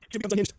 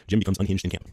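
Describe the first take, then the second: First: High, amused repeat of the line; amused emphasis. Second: Said in the usual way. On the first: Acted. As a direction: savour the ominous line with a grin.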